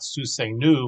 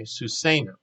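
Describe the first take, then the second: First: Susenu with the stress thrown onto the final NU; wrong final-syllable stress. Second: Susenu accented on the middle "say", light final nu; stress on SE. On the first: Teacher showing what to avoid, susenu stressed on final NU. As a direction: punch the last syllable, susenu ending on "NOO". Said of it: "The point is it's not susenu". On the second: Teacher giving the correct form, Susenu stressed on SE. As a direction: stress the SE and let the ending of Susenu fall. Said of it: "accent is on the, the A sounding syllable". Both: Shown as a demonstration.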